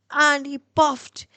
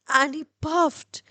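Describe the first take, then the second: No difference in how they are said.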